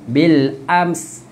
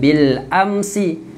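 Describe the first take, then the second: First: The word ends on the consonant sound. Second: The word ends with an added final vowel. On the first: The speaker calls it right. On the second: The speaker calls it wrong. "Jangan bil amsi"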